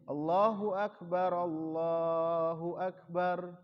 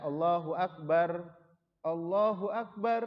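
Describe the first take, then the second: First: Both phrases run together without a breath pause. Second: A pause for breath follows the first phrase. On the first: The two takbirs count as one unit. The speaker calls it right. "tetapi tidak dipisah" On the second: Each takbir is treated as separate. The speaker calls it wrong. "berhenti di yang pertama, enggak"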